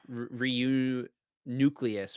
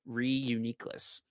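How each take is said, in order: First: The name ends like the word 'nucleus'. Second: The name ends with a short 'niclus' sound. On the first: The speaker calls it wrong. "That's how I thought it was at first" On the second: The speaker calls it right. "but Reuniclus"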